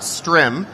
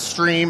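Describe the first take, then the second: First: The vowel is a short 'i' sound. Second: The vowel is a long 'ee' sound. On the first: The speaker calls it wrong. "It's not Strim" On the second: The speaker calls it right. "Stream is pronounced Stream"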